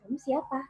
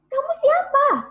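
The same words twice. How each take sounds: First: It is said softly with little vocal power. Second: It is said loudly with maximum vocal power.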